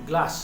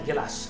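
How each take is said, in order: First: The g and l form a cluster. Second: A short vowel is inserted between g and l. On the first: "আমি ধরো বললাম" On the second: "অনেকে দেখবে বলে"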